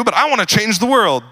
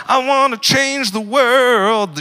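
First: Said in the usual way. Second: Slow, much higher sung line with a laugh; sung, belt it like a cheesy idealist anthem; sung mock anthem. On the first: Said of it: "You're like". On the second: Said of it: "I don't know why I sang it".

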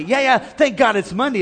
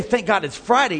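First: Brighter, bouncier take on Monday; cheerful. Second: Said in the usual way. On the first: Shown as a demonstration. Preacher showing the upbeat way to greet a Monday. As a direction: say it upbeat, with a lift. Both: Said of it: "Don't just say".

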